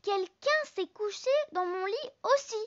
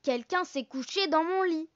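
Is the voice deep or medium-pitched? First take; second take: medium-pitched; deep. First: It is said in a medium-pitched voice. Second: It is said in a big deep voice.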